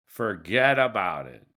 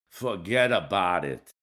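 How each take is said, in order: First: Said in the usual way. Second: Put-on lower-pitched New Jersey mobster accent, dismissive; Tony Soprano accent. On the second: Podcaster brushing off a two-state solution, in a mock New Jersey mobster accent. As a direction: toss it off like a Jersey mob boss in a New Jersey accent. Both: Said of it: "Do a Tony Soprano's accent".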